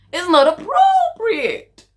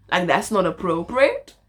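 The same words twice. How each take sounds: First: Very high, drawn-out mock telling-off; mock scolding. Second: Said in the usual way. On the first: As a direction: squeal it slowly, far above your usual voice.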